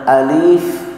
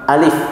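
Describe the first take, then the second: First: The vowel is drawn out and lengthened. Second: The vowel is short, with no lengthening. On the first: The speaker calls it wrong. "bukan dibaca alif" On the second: The speaker calls it right. "nggak ada matnya di situ, langsung alif seperti itu"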